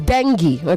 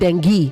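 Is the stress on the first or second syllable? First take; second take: first; second. First: The stress is on the first syllable. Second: The stress is on the second syllable. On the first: The speaker calls it right. "It is dengue" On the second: The speaker calls it wrong. "not dengue"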